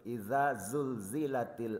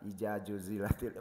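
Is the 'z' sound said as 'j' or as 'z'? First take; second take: z; j. First: The z sounds are said clearly as z. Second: The z sounds are said as j. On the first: The speaker calls it right. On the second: The speaker calls it wrong.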